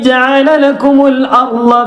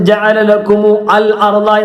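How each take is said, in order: First: Lakumu runs straight into arda with no extra vowel. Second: A separate 'al' with its vowel is said before arda. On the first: The speaker calls it right. "ചേർത്തി ഓതുമ്പോൾ ഉച്ചരിക്കുകയില്ല" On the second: The speaker calls it wrong. "ഒരിക്കലും ഓതരുത്"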